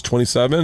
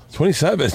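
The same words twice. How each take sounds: First: Said in the usual way. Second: Retold disbelieving repeat, pitched up; startled, questioning imitation; incredulous echo. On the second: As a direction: echo it back in mock disbelief. Group's startled echo of the answer.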